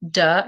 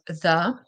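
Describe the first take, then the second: First: It begins with a hard d sound. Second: It begins with a soft th sound. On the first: The speaker calls it wrong. "if you keep on saying duh" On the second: The speaker calls it right. "instead of the"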